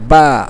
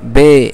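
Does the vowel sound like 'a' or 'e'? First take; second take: a; e. First: The vowel sounds like a. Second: The vowel sounds like e. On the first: The speaker calls it right. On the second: The speaker calls it wrong.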